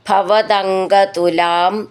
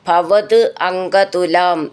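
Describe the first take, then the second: First: The words are joined, with a d sound. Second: The words are split, ending in a t sound.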